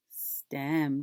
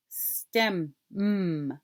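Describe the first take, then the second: First: Said in the usual way. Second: STEM, then a separate held MM; final sound isolated. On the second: Shown as a demonstration. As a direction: repeat the last sound of STEM as a hum. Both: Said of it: "What's the final sound?".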